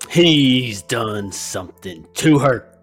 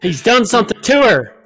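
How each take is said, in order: First: It is said dramatically with odd timing. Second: It is said plainly with natural timing.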